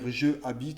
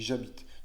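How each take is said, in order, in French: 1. La voyelle de 'je' se prononce séparément. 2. La voyelle de 'je' est élidée et liée. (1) "on va pas dire je habite à Lille" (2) "on dit j'habite"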